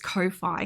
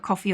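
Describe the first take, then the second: First: It ends like Wi-Fi, with a long i. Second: It sounds like the drink coffee. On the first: "it's like Wi-Fi, but it's Ko-fi" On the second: "coffee or whatever"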